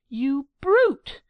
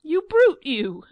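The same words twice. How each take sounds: First: A loud, higher shriek of brute; screaming. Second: A far higher, much louder scream that peaks on brute; full scream. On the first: Angelica screaming at Giglio, loud and higher. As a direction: scream the insult at him. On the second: Angelica's rage peaking at Giglio, top-of-the-voice scream. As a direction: let it tear out at full pitch. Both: Acted. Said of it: "Angelica screamed out".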